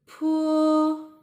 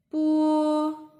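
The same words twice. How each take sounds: First: "Pu" with a puff of air after the p; high, level "Pu" with an airy p; aspirated p. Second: "pu" with no puff, close to b; high, level "pu" with an unaired p; unaspirated p. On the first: Teacher contrasting two consonant groups, aspirated "Pu". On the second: Teacher contrasting two consonant groups, unaspirated "pu". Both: Shown as a demonstration. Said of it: "they are the unaspirated sound of these consonants".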